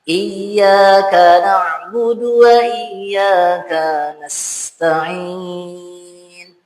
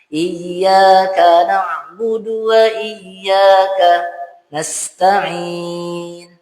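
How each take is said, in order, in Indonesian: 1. Suku kata ka sebelum nasta'in dipanjangkan. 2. Ada jeda penuh sebelum nasta'in. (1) "Seakan-akan ka-nya jadi panjang" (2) "Itu jadi saktah. Tidak ada saktah di situ. Salah juga"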